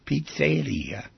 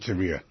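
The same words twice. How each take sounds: First: The middle does not sound like 'rear'. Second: The middle sounds like the word 'rear'. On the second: "As if it's in the back of the place. The rear of the pizza"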